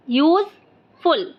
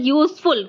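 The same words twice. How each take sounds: First: "useful" broken in two, use, pause, ful; split into two syllables. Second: Said in the usual way. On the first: Shown as a demonstration. Teacher showing pupils two chin movements, "useful" split into two syllables. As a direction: say "useful" with a clear gap before ful. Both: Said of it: "useful दो बार".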